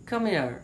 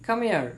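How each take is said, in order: The two takes are said the same way.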